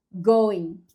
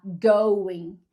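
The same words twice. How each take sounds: First: "going" said with a plain pure O, no glide, Brazilian style; wrong pronunciation. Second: "going" said slowly with the full English OU diphthong gliding; correct pronunciation. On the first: Showing viewers her own mistake, "going" with a flat pure O. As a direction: say "going" with a flat single O vowel. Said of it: "eu falo going". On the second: Showing viewers the correct form, slow "going" with a gliding OU. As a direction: stretch "going" into a clear O-U glide, slowly. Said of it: "em vez de falar going". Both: Shown as a demonstration.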